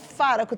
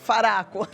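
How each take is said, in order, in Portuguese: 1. A tônica está na primeira sílaba. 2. A tônica está na segunda sílaba. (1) "se fosse Faraco, teria um acento" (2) "Errei? Errei"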